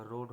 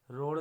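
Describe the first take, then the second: First: रोड ending in hard, unflapped ड; correct pronunciation. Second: रोड louder, ending in flapped ड़; wrong pronunciation. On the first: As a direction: say रोड as "road", firm d. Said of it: "होगा". (रोड में सख्त ड बोलें) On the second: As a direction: say रोड as "ror", tongue flapped. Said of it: "नहीं होगा". (रोड में ड की जगह ड़ बोलें) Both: Shown as a demonstration.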